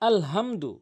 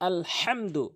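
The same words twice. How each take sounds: First: The h is a light, plain breathy sound. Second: The h is pressed from the middle of the throat. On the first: The speaker calls it wrong. "ছোট হা বড় হার জায়গাতে ছোট হায় নিয়ে উচ্চারণ করে" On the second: The speaker calls it right. "এখানে আলহামদু বলবেন"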